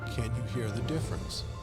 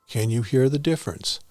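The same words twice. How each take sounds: First: It is recorded at the lowest fader level. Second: It is recorded at a fairly high fader level. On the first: "Level five" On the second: "Level eight"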